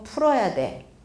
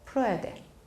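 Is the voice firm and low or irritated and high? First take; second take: irritated; firm. First: It is said in a high, irritated tone. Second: It is said in a low, clear, firm tone. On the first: It sounds like nagging rather than an instruction. The speaker calls it wrong. "이렇게 짜증스러운 하이톤" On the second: It carries real authority as an instruction. The speaker calls it right. "톤이 분명하고 좀 낮아야 됩니다"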